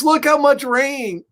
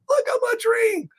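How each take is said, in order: First: High-pitched astonishment at a downpour; amazed exclamation. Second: Very high, tiny astonished squeal; squeaky amazement. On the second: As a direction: repeat it in a squeaky put-on voice. Repeats it much higher. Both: Acted.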